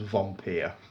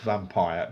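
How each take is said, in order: First: It is said with a German pronunciation. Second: It is said like the English word vampire. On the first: The speaker calls it right. "apparently it's pronounced, it's a German film" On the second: The speaker calls it wrong. "I thought it was pronounced vampire"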